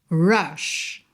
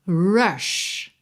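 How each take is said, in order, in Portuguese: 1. Começa com um som de r com a língua enrolada. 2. Começa com um som de r com a língua enrolada.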